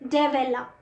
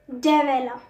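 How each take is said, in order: First: The middle vowel is fully pronounced. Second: The same.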